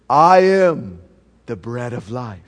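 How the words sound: It is said softly and gently.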